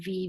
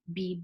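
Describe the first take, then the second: First: It begins with a v-like sound. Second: It begins with a b-like sound.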